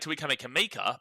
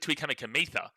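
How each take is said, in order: First: The surname's last syllable starts with a K sound. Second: The surname's last syllable starts with a TH sound. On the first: The speaker calls it wrong. "people say" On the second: The speaker calls it right. "the C in Fijian is pronounced with a T H"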